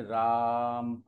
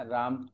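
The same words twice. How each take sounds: First: राम with a very long held "aa"; राम sustained on one level note; drawn-out vowel. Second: Said in the usual way. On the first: Shown as a demonstration. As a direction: stretch the रा in राम far beyond normal. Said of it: "रा को आपने क्या किया और खींचा". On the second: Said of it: "रा बोलने पर ऑटोमेटिकली दो मात्रा काल".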